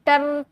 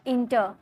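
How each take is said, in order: First: टर stretched out and stressed; wrongly stressed syllable. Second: inter with a light टर; unstressed final syllable. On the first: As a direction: exaggerate टर as the mistake. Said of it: "टर थोड़ी बोल रहे". (टर को खींचकर ज़ोर देना) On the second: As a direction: say inter without pushing the टर. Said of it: "इसमें आप जोड़ नहीं दोगे". (इंटर, टर पर ज़ोर दिए बिना) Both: Shown as a demonstration.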